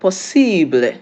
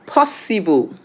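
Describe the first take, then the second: First: "possible" said the French way, with a long "ee"; French pronunciation. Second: "possible" said the English way, stressed on the first syllable; English pronunciation. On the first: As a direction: say French "possible" as "po-SEE-bluh". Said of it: "in French". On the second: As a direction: say English "POSS-i-bull". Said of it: "in English is pronounced". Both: Shown as a demonstration.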